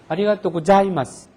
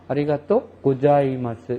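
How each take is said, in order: First: The syllable after go is a clear za, mouth open wide. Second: The syllable after go sounds like ja, mouth barely opening. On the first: The speaker calls it right. "자 발음이 확실하게 자가 발음이 납니다" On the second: The speaker calls it wrong. "여기서 다 한단 말이에요"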